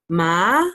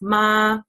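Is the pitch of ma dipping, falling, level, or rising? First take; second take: rising; level. First: The pitch rises upward. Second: The pitch stays level throughout. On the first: "the second one is kind of like an up tone" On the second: "the first tone is a straight tone. So you just say like no intonation"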